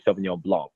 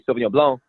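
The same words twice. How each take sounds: First: The final C of Blanc is pronounced. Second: The final C of Blanc is silent. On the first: "they pronounce the C at the end" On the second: "I say Sauvignon Blanc"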